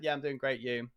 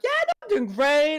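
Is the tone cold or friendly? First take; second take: cold; friendly. First: It is said in a cold, dismissive tone. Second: It is said in a warm, friendly tone.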